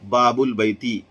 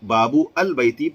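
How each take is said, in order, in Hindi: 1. शब्द बिना glottal stop के जुड़ते हैं। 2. ग्लोटल स्टॉप शब्दों को अलग करता है। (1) "अल का हमजा जिसे हमजतुल वस्ल कहते हैं तलफ्फुज से साकित हो जाएगा" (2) "पढ़ना गलत है"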